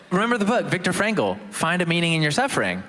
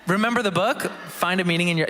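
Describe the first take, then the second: First: Said in the usual way. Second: Radio announcer teasing a book. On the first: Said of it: "But anyways". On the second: Pretend. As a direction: keep up the radio presenter voice. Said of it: "that's my radio voice".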